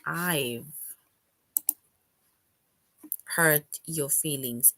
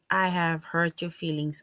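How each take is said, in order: First: I have is shortened to one syllable, I've. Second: I have is said as two full words.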